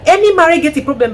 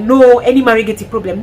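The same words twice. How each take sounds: First: "Any marriage gets a problem" said higher and louder, punching "any"; own emphatic take. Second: Mock adviser. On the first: Real, not acted. Correcting the adviser, emphatic higher restatement. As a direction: stress "Any" as her own point. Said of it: "No, no, no". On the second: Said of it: "and then I'm like".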